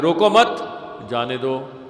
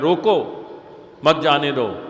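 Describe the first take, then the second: First: The pause comes after 'mat'. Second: The pause comes after 'roko'.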